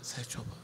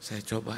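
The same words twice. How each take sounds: First: Whispered, much softer; weak whispered reply. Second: Said in the usual way. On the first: Retold or imitated. Wife answers pastor weakly, whispered. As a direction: barely whisper it, worn out. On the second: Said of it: "pastor repeats her words".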